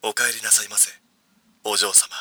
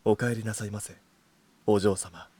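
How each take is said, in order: First: Low, soft butler voice; sugary maid cafe greeting. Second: Low, soft, sweet butler voice; sugary maid cafe greeting. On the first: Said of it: "とりあえず聞いてみようぜ。". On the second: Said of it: "じゃあ、俺からな。". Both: Shown as a demonstration. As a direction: purr it like a devoted butler.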